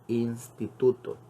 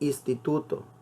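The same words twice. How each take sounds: First: The N in the first syllable is kept. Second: The N in the first syllable is dropped. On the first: The speaker calls it right. "lo correcto es decir instituto" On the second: The speaker calls it wrong. "A veces dicen muchas personas"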